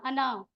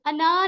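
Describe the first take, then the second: First: अना said short and clipped, final a not drawn out; correct short ana. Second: अना with the final a drawn out long, the way it is wrongly read; wrong stretched ana. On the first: Teacher giving students the correct short अना. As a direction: say अना quickly with no stretch on the end. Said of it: "आपने इसको खींच कर नहीं पढ़ना". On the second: Teacher showing students the wrong long अना. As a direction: stretch the ending of अना to show the mistake. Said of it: "अना नहीं पढ़ना". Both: Shown as a demonstration.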